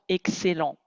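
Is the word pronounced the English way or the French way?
French. It is pronounced with French sounds and stress. "l'anglais peut-être ne va pas comprendre excellent"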